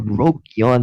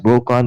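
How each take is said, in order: First: The name has a y sound, Brokyon. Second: The name is said as Brokon. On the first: The speaker calls it wrong. "or Brokyon" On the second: The speaker calls it right. "that's Brokon"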